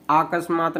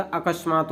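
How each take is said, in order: First: अकस्मात with long opening आ; wrong pronunciation. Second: अकस्मात with short opening अ; correct pronunciation. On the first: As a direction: stretch the first vowel of अकस्मात to आ. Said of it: "अकस्मात नहीं होता". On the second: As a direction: keep the first vowel of अकस्मात brief. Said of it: "अकस्मात होता है". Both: Shown as a demonstration.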